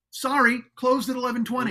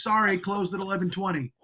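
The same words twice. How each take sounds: First: Louder, higher mocking reread of the sign; sarcastic store clerk voice. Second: Said in the usual way. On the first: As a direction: sneer it out like a smug store clerk. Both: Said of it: "And it says".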